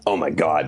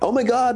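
First: It sounds angry. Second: It sounds excited.

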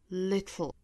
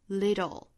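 First: The t is released sideways before the l. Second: The t is a quick flap into the l. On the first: "英音的发法呢是舌边爆破" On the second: "美音版。舌尖的位置是在硬腭的部分一弹而过，很快就过渡到舌侧音了"

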